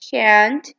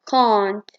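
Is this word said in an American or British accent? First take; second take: American; British. First: It is said in an American accent. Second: It is said in a British accent. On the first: "In American, they say it as" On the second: "In British, they say it as"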